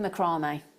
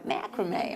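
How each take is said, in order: First: The word has a British pronunciation. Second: The word has an American pronunciation.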